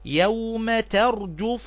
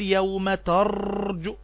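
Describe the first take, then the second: First: The r is short with no extra trill. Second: The r is held and trilled for long. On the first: The speaker calls it right. "لا" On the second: The speaker calls it wrong. "ما تقفش على الراء كتير وتقول يوم ترجف"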